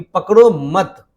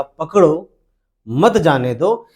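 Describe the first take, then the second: First: पकड़ो मत run together as one slow, loud phrase; pause after मत. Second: पकड़ो hit firmly, then a pause; stress on पकड़ो. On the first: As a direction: join मत to पकड़ो, then stop. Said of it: "मत के बाद में अल्प विराम चिन्ह लगाऊं". (पकड़ो मत, मत के बाद विराम) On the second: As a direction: put the force on पकड़ो, pause after it. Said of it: "काफी ज्यादा बल का प्रयोग किया है". (पकड़ो पर ज़ोर, फिर विराम) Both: Shown as a demonstration.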